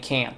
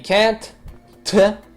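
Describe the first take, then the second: First: The final T is barely audible. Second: The final T is clearly pronounced.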